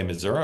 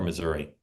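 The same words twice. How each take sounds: First: "Missouri" said as "Mizzou-ruh"; Missouri ending in "uh". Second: "Missouri" said as "Mizzou-ree"; Missouri ending in "ee". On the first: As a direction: end "Missouri" on an "uh" sound, not "ee". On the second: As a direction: end "Missouri" on a clear "ee" sound. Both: Shown as a demonstration. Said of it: "You like to say Missouri or Missouri".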